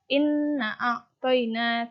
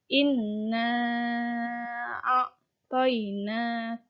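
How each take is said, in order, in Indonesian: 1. Vokalnya dibaca pendek, tidak dipanjangkan. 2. Vokalnya dibaca panjang, dua harakat. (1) "Jangan langsung" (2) "dipanjangkan. Misal panjangnya dua harkat"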